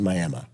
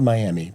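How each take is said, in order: First: The name is said with a different local pronunciation. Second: The name is said the way it is spelled. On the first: "but you pronounce it Miami" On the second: "It's spelled Miami"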